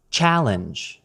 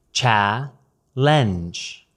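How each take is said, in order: First: Said in the usual way. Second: "Cha-lenge" split into two separate syllables. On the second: Shown as a demonstration. Teacher demonstrating American pronunciation, "Cha-lenge" broken into syllables. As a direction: say "Cha-lenge" in two parts, pausing between. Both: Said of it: "American pronunciation of challenge".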